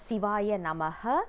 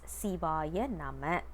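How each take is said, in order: First: The last word ends with an added 'ha' syllable. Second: The last word ends plainly on 'ma'. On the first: It sounds like calling someone's name. The speaker calls it wrong. "We are not supposed to uh, pronounce it as" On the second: It works as a mantra. The speaker calls it right. "it must be said as"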